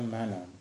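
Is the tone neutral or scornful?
neutral. It is said in a plain, neutral tone. It simply identifies who is at the door.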